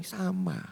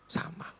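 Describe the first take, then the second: First: Said in the usual way. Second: "Sama." breathed as a voiceless whisper, far softer; "Sama." whispered as a soft echo. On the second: Acted. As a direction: drop "Sama." to a bare whisper. Repeats in a whisper.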